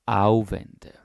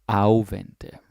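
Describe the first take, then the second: No difference in how they are said.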